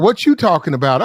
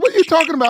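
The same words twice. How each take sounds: First: Loud challenge at usual pitch; imitating her pushy comeback; retold challenge. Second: High-pitched incredulous comeback; acted-out indignant question; retold disbelief. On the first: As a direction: throw the question back, loud and level in pitch. Retold exchange, her side. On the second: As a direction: fire the question back high, in mock disbelief. Retold exchange, his startled comeback.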